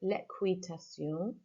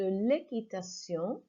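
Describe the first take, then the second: First: The qu is said as kw. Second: The qu is said as a plain k. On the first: The speaker calls it wrong. "I mispronounced the word there" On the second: The speaker calls it right. "this time I'll say it correctly"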